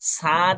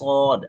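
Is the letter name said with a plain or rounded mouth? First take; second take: plain; rounded. First: It is said with a plain, unrounded mouth. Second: It is said with a rounded, full mouth. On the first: The speaker calls it wrong. "সদে সাদ বলা যাবে না" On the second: The speaker calls it right. "আমি সদ বলার সময় আমার মুখ গোল হচ্ছে।"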